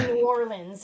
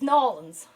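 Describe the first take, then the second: First: The name is said as two separate words. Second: The name is run together into one word. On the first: This is how an outsider says it. The speaker calls it wrong. "when I say New Orleans" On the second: This is how a local says it. The speaker calls it right. "my friend's like, it's Nolans"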